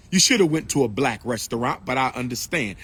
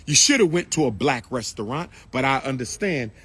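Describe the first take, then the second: No difference in how they are said.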